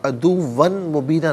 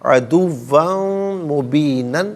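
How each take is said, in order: First: The last word ends in a long vowel. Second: The last word ends in an n sound. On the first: The speaker calls it wrong. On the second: The speaker calls it right.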